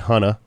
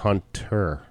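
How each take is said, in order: First: The ending is said with a clear R sound. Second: The ending is said as 'ah' without R. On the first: "I didn't say Hunter" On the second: "Nobody pronounces the E-R. It's an A"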